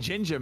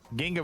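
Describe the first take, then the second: First: The middle G is a soft sound. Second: The middle G is a hard sound. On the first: The speaker calls it wrong. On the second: The speaker calls it right.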